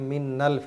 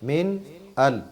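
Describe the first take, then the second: First: The words run together with an added n sound. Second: The words are kept apart without the added n. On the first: The speaker calls it wrong. "नल नहीं है" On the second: The speaker calls it right. "अलग अलग पढ़ना"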